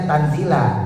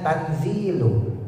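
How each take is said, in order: First: The word ends with an 'a' vowel. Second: The word ends with a 'u' vowel. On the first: The word is the object of an implied verb 'read'. "kalau kita bacanya Tanzila" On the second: The word is the predicate of an omitted subject. "dibaca birraf'i, dengan rofa ... doma, maka dibacanya tanzilu"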